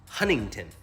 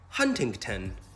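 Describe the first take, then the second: First: The first t sound is dropped entirely. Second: Both t sounds in the word are pronounced. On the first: "you don't need to say them all. You can just say Huntington" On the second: "If I were English, right, I would say Huntington"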